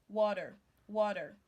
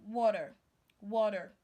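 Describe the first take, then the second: Both takes have the same delivery.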